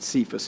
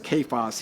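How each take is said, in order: First: The word begins with a soft S sound. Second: The word begins with a hard K sound. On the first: The speaker calls it wrong. "sometimes we pronounce it Cephas in church" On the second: The speaker calls it right. "it's a hard K"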